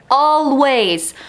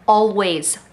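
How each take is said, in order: First: ALWAYS said higher and louder; emphatic always. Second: Said in the usual way. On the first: Shown as a demonstration. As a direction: lean hard on the repeated always. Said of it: "always repeated louder".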